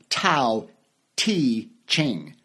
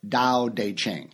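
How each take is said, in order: First: The first word begins with a T sound. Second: The first word begins with a D sound. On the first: The speaker calls it wrong. "it's spelled T-A-O-T-E-C-H-I-N-G. So it sounds like" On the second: The speaker calls it right. "but it's"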